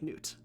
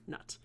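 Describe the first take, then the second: First: The vowel is a long 'oo' sound. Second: The vowel is a short 'uh' sound. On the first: The speaker calls it right. "it's pronounced like Newt" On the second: The speaker calls it wrong. "So please do not call her Nut"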